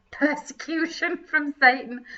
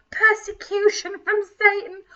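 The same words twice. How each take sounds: First: Said in the usual way. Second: Whispered mock cry, higher; mock anguish. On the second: Host re-reading the yearbook phrase, mock anguished whisper. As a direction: gasp it out like a tragedy.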